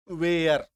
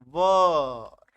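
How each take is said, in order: First: वेयर drawn out into two vowels, way-er; wrong pronunciation. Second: वर said as one short syllable, wuh-r. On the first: Teacher mocking the common mistake, a drawn-out वेयर. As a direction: say वेयर stretched like the English word wear. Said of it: "बहुत ही गलत उच्चारण है". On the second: Teacher showing students how to say वर. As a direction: say वर short and clipped, like the word for groom. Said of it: "इसका उच्चारण देख लो भाई साहब". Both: Shown as a demonstration.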